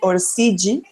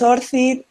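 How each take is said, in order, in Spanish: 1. Se dice con una pronunciación del portugués de Brasil. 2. Se dice con una pronunciación del español de España. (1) "Yo he vivido bastante tiempo en Brasil y la gente lo dice allí ORCID" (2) "y en España es ORCID"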